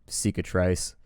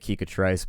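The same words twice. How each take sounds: First: The word begins with a soft S sound. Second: The word begins with a hard K sound. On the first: The speaker calls it right. "the opening C is probably" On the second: The speaker calls it wrong. "but that doesn't sound right to me"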